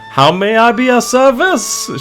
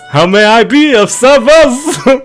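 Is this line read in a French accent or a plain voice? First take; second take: plain; French accent. First: It is read in the speaker's ordinary voice. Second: It is read in an exaggerated French accent.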